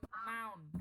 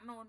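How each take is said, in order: First: The vowel is an 'ow' glide. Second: The vowel is a plain 'oo' sound. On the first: The speaker calls it right. "Noun ya kayak orang Sunda itu loh" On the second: The speaker calls it wrong. "bukan nun"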